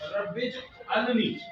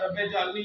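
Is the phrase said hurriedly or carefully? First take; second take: carefully; hurriedly. First: The phrase is said slowly and carefully. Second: The phrase is said quickly and rushed. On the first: The speaker calls it right. "ये सही होगा" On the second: The speaker calls it wrong. "आमतौर पर जल्दी में पढ़ते हैं ना"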